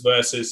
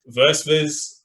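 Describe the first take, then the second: First: The name is said like 'Versus'. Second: The name is said like 'Versviz'. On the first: The speaker calls it right. "It goes Versus" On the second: The speaker calls it wrong. "I tried to pronounce it as Versviz"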